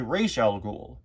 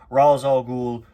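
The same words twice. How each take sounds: First: The first word ends with a 'sh' sound. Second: The first word ends with an 's' sound. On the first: The speaker calls it right. "the proper way to say his name is actually Ra's al Ghul" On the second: The speaker calls it wrong. "I'm just going to stick to the wrong pronunciation"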